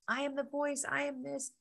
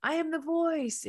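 First: High stage proclamation; imitating Tony Robbins. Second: High, loud, slow stage shout; imitated scream. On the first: Speaker mimics Tony Robbins proclaiming to the crowd, high. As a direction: declare it like a coach on stage. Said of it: "he's going on". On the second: Speaker mimics Tony Robbins screaming at the event, slow high shout. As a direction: belt it like a coach whipping up a crowd. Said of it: "he's, like, screaming".

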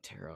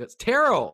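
First: Barely audible whispered secret; too quiet to hear. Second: High, loud exasperated blurt. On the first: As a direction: keep it hidden under your breath. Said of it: "Speak up". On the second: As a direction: blurt it out so they finally hear. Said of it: "I can't believe I said it out loud". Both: Retold or imitated.

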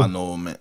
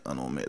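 First: Said in the usual way. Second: Quiet echo. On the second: Real, not acted. Echoing agreement, drops away.

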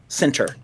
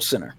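First: "Center" with the T clearly sounded; careful pronunciation. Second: Said in the usual way. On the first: Shown as a demonstration. Correcting his own slurred word, careful "Center" with a full T. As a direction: say "Center" carefully, crisp T in the middle.

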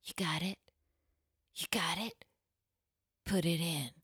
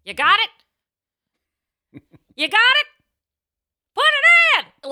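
First: Soft, breathy pop-star whisper. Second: High, loud shouted whisper lines; shouting. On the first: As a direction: breathe it close to the mic. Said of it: "[name] going". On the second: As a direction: belt the sexy line like a yell. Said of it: "And I'd be like". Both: Retold or imitated.

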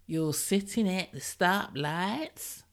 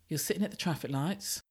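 First: Slow, put-on American accent, "stoplights" drawn out American-style. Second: Said in the usual way. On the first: Shown as a demonstration. Podcaster mimicking US listeners' word, slow American accent. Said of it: "I'm not even gonna do an accent, which I just did". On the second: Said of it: "I'm not even gonna do an accent".

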